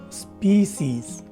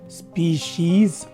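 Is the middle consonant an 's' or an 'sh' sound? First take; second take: s; sh. First: The middle consonant is a plain 's' sound. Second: The middle consonant is an 'sh' sound.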